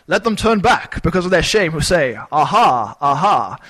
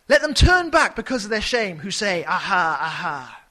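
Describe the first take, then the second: First: Loud, grand Shakespearean stage reading; Shakespearean accent. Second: Dramatic reading. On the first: Preacher mocking the ESV with a hammed-up Shakespearean accent. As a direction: declaim it like an old Shakespearean actor. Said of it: "read it in some sort of Shakespearean accent". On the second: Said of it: "put as much dramatic emphasis into this". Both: Shown as a demonstration.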